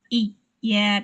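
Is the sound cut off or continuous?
cut off. The sound is broken off partway through. The speaker calls it wrong. "Jangan iya, tidak"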